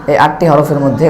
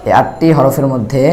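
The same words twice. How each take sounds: The two takes are said the same way.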